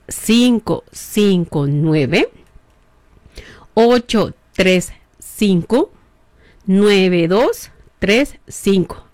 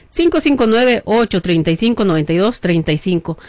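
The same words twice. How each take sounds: First: Each digit slow and spaced for writing down; slowly. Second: Said in the usual way. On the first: Shown as a demonstration. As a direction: dictate the number very slowly with long pauses. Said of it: "¿o qué lo voy a decir despacito?". (dictando el número muy despacio) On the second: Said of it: "Ahí le va".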